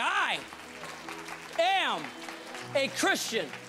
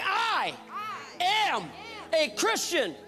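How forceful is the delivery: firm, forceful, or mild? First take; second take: mild; forceful. First: It is said in a plain, mild voice. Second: It is said loudly, with the most force. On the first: "Say that with me" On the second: "Now let the devil know it"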